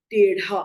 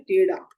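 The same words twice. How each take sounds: First: टेढ़ा with aspirated ढ, "tedhaa"; टेढ़ा with ढ, not ड; correct pronunciation. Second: टेढ़ा as "tedaa", with unaspirated ड; टेढ़ा said with plain ड; common mistake. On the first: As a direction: puff air on the middle of टेढ़ा. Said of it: "सही शब्द है". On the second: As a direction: drop the breath from the middle of टेढ़ा. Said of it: "हम लिख देते हैं". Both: Shown as a demonstration.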